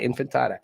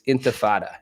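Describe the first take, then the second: First: The word begins with the sounds 'infan'. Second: The word begins with the sounds 'inti'. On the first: The speaker calls it wrong. "It's not infantada" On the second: The speaker calls it right. "it's intifada"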